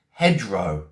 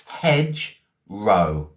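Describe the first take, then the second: First: Said in the usual way. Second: "Hedgerow" very slowly, split into hedge and row; broken into parts. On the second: Shown as a demonstration. Teacher breaking down Hedgerow for learners, slowly in two separate parts. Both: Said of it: "I'm gonna spell it".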